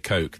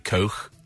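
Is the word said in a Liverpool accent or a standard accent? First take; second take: standard; Liverpool. First: The k sound is plain and crisp. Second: The k sound is harsh and throaty.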